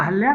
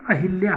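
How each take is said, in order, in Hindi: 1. नाम को 'ah' के बाद बिना 'i' के बोला जाता है। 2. नाम को 'ah' के बाद 'i' के साथ बोला जाता है। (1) "अहल्या नहीं होता है मित्रों" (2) "जो कि अहिल्या होता है"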